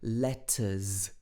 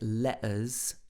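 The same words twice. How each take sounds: First: The middle T is clearly pronounced. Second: The middle T is dropped, a slangy pronunciation. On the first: "He pronounces the T in the middle of this word" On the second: "He doesn't say letters, like uh, some people might in a slangy pronunciation"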